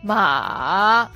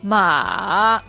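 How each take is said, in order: The two takes are said the same way.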